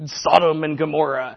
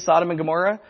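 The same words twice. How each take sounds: First: It is said in a heavy, grave way. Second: It is said in a light, cheerful, childlike way. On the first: The words carry condemnation and ugliness. The speaker calls it right. "No, it's like a" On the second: The words sound harmless and happy. The speaker calls it wrong. "can you imagine like a child saying Sodom and Gomorrah?"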